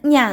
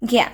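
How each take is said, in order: First: It begins with a palatal nasal ny sound. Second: It begins with a hard g followed by y. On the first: This is how the letter is said in Malayalam. "നമ്മൾ ഞാ എന്ന് പറയും" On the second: This is how the letter is said in Hindi. "ഹിന്ദിയിൽ ഇതിനെ ഗ്യാ എന്നാട്ടോ pronounce ചെയ്യണേ"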